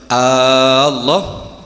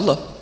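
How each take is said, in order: First: The first vowel is drawn out long. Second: The first vowel is short. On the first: It asks whether God is great. The speaker calls it wrong. "kalau Allah hamzahnya panjang" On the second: It states that God is great. The speaker calls it right. "Kalau Allah pendek ya Allah"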